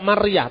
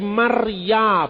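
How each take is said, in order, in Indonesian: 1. Kata ini berakhir dengan bunyi h yang terdengar. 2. Kata ini berakhir dengan vokal biasa. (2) "Yang ada kata Maria, bukan Maryah"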